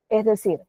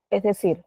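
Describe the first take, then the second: No difference in how they are said.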